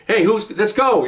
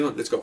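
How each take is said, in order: First: High, slow, louder call; loud wrong way. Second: Much softer let's go; quiet right way. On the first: Showing how not to call to fellow officers, loud. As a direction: announce it the wrong way. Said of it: "you don't do that". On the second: Showing the right quiet call to fellow officers. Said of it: "You quietly go". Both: Shown as a demonstration.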